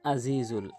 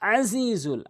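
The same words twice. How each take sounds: First: It starts with a plain glottal stop. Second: It starts with a tight sound from mid-throat. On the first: The speaker calls it wrong. "আইনের জায়গায় হামজা উচ্চারণ করে বলে" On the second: The speaker calls it right. "বলতে হবে"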